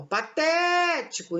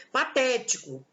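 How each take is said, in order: First: "patético" with TÉ held long; slow "patético", leaning hard on TÉ to show the stress; stressed middle syllable. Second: Said in the usual way. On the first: Shown as a demonstration. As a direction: stretch out the second syllable of "patético". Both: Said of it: "qual que é a sílaba tônica?".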